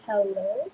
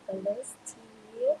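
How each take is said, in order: First: Said in the usual way. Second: Drawn-out high sing-song greeting, much higher and slower; sing-song call. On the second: Real, not acted. Host calling guest Steve onto the stage, slow high sing-song. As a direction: sing his name out slowly to welcome him.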